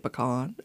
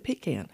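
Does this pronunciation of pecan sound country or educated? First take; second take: educated; country. First: Pecan is said in a polished, educated-sounding way. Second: Pecan is said in a down-home, country-sounding way. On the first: The speaker wants to seem refined or educated. "If you want to sound a little pretentious or educated, you'll say pecan" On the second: The speaker wants to seem homey and rural. "if you want to sound down home and country, you're going to say pecan"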